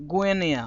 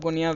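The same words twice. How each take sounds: First: Guinea said as gweh-nee; the right way. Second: Guinea said as goo-nee-ya; the common Indian way, Guinea with an oo sound; the wrong way. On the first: Teacher giving students the correct pronunciation of Guinea, gweh-nee. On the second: Teacher showing students the wrong pronunciation, Guinea as goo-nee-ya. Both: Shown as a demonstration. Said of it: "instead of Guinea we should say".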